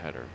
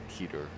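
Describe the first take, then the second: First: The first vowel is short, with a d sound. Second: The first vowel is long, with a t sound. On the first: This is how the speaker usually says it. "I always call them tedders" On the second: This is how someone else says it. "I did hear someone else the other day call them a teeter"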